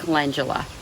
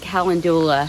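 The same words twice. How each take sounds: First: The word does not begin like calendar. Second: The word begins like the word calendar. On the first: The way everyone else says it. The speaker calls it right. "everybody else pronounces it calendula" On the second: The speaker's own long-time habit. The speaker calls it wrong. "I have called it calendula for so many years"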